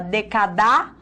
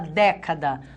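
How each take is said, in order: First: The stress is on the last syllable. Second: The stress is on the first syllable. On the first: The speaker calls it wrong. "A gente fala decadar" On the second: The speaker calls it right. "Nós falamos década"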